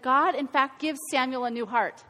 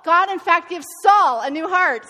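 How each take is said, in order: First: Said in the usual way. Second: Saul said louder and firmer, a correction; louder correction, landing on Saul; emphatic fix that hits the name Saul; stress on Saul. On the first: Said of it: "I even wrote it in my notes wrong". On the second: Shown as a demonstration. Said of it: "It's Saul".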